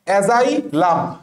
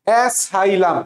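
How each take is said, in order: First: The second consonant is a z sound. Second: The second consonant is an s sound. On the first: "অ্যাজাইলাম একটা word" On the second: "অনেকে এটা এইভাবে পড়ে অ্যাসাইলাম"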